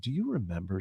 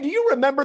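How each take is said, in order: First: The voice stays low and grave. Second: The voice is raised high and bright. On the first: Bad news is coming. "That tone, you're like, "Oh, this isn't good."" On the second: The news is harmless or good. "the voice raises an octave or two"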